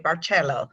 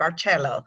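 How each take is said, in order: First: The name is said the Italian way. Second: The name is said the Italian way.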